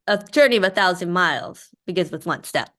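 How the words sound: It sounds like a joke's punchline.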